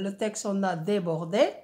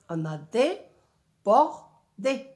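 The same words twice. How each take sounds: First: Said in the usual way. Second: "débordé" slowed to dé-bor-dé, each syllable separate; slow syllable count. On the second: Shown as a demonstration. Teacher counts syllables of "débordé" slowly. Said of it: "trois syllabes".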